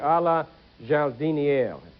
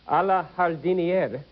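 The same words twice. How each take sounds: First: The phrase is pronounced with French-style sounds. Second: The phrase is pronounced with Spanish-style sounds. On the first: The speaker calls it right. "It should be" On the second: The speaker calls it wrong. "I thought that was Spanish. I mispronounced it"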